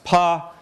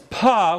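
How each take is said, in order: First: The p is released without a puff of air. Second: The p is released with a puff of air. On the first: "don't say them as pa" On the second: "say them as pa with aspiration"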